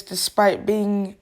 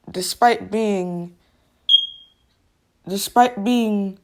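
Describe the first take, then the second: First: Said in the usual way. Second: Slow halting TTS pauses. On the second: Shown as a demonstration. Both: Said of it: "that's how it literally sounds".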